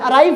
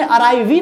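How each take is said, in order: First: Said in the usual way. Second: अराइव ही with a voiced ee at the end; wrong pronunciation. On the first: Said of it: "अराइव पढ़ रहे हैं". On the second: Shown as a demonstration. Teacher shows students the wrong way, voicing the final E. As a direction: say अराइव ही sounding the silent E. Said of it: "अराइव ही नहीं पढ़ रहे हैं".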